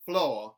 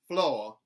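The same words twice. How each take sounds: First: The R sound is dropped. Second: The same.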